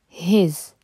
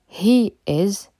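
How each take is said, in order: First: The words are merged into one short syllable. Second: Two separate full words are said. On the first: "devient his" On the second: "He is devient his"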